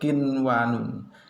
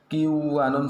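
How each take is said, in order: First: The n before w is pronounced clearly. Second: The n before w is dropped and merged. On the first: The speaker calls it right. "Yang betul kinwanun" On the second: The speaker calls it wrong. "tidak boleh membaca kiwanun, salah malahan"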